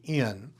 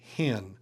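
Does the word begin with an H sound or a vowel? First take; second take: vowel; H sound. First: The word begins directly with the vowel. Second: The word begins with an H sound. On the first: "If it's a smooth breathing" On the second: "If it has a rough breathing"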